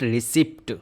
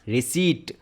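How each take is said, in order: First: The p sound is pronounced. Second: The p sound is silent. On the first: The speaker calls it wrong. "गलत pronunciation है" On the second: The speaker calls it right. "यहाँ पे पी silent होता है"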